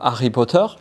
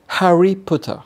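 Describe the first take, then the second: First: The h at the start of Harry is silent. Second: The h at the start of Harry is pronounced. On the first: The speaker calls it wrong. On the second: The speaker calls it right.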